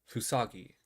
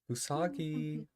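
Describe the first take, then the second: First: The name is said in a harsh, ungentle tone. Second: The name is said softly, as to a child.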